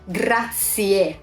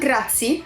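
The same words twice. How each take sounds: First: The word ends with a clear 'e' vowel. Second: The word ends without a clear 'e' vowel. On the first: The speaker calls it right. "It's e" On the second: The speaker calls it wrong. "Not grazie"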